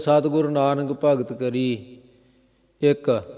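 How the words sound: The pause comes right after the word 'ikk'.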